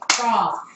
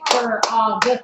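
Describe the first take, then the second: First: The word is said as one short syllable. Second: The word is drawn out into two syllables. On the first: The speaker calls it right. "It's one because there are no lines in it" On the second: The speaker calls it wrong. "We don't say frog when you talk"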